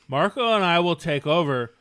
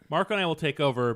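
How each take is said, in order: First: It is said in a put-on character voice. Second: It is said in the speaker's ordinary voice.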